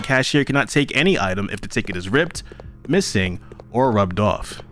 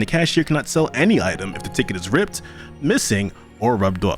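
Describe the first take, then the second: First: It is said in a plain voice. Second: It is said in a showy announcer voice.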